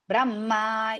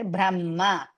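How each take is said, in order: First: The vowel is drawn out long. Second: The vowel is kept short. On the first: The speaker calls it wrong. "is not there" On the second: The speaker calls it right. "it is hrisva"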